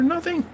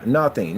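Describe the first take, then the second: First: Much higher, squeaky Nothing; squeaky punchline. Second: Said in the usual way. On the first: Acted. Knock-knock punchline in high voice.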